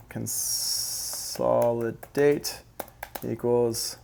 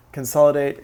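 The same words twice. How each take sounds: First: "Consolidate" stretched out very slowly, syllable by syllable, rising at the end; slow dictation. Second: Said in the usual way. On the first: Shown as a demonstration. Producer writing a note for viewers, slow drawn-out dictation. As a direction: drag out "Consolidate" as if typing it. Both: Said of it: "Let's write that down".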